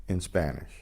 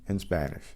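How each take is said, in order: The two takes are said the same way.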